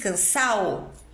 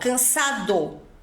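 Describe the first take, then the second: First: The d between the final vowels is dropped. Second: The d between the final vowels is pronounced.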